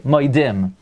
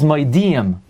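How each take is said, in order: First: The first syllable sounds like 'moy'. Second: The first syllable sounds like 'mo-ee'. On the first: The speaker calls it wrong. "people say moidim" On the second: The speaker calls it right. "The word is moedim"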